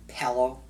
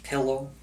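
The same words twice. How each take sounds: First: "pillow" said pellow, with an eh vowel. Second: "Pillow" said with the vowel of pill; pillow with short I. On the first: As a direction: say pillow to rhyme with fellow. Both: Shown as a demonstration. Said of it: "if you say pillow".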